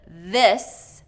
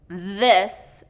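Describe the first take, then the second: First: It begins with a voiced th sound. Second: It begins with a voiced th sound.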